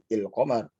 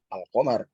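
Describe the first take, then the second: First: The word begins with the vowel i. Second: The word begins with the vowel a. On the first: "ini i" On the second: "kalau di sini ada a"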